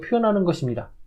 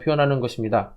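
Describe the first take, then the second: First: It is said with lively, varied intonation. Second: It is said in a flat, even tone. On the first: The speaker calls it right. "감정이나 느낌을 가지고" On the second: The speaker calls it wrong. "그냥 일반적으로"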